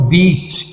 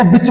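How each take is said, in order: First: बीच with a stretched ee; long vowel. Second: बिच with a short, quick i; short vowel. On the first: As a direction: lean on the vowel in बीच and draw it out. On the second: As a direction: keep the i in बिच brief. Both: Shown as a demonstration. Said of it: "थोड़ा सा जोर लगा के बोलूं".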